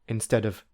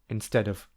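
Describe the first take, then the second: The two takes are said the same way.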